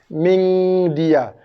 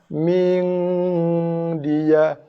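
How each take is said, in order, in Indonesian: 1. Bunyi sengau digabung menjadi satu suku kata yang cepat. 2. Vokal pendek dulu, lalu bunyi sengau dipanjangkan. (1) "Bukan dicantumkan menjadi satu suku kata" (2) "Tapi ming"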